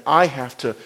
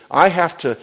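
The two takes are said the same way.

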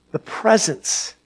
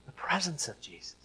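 First: Said in the usual way. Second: Breathy whisper of "The presence of Jesus.". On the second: Shown as a demonstration. Preacher whispering "The presence of Jesus." to the congregation. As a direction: hush it to a reverent whisper.

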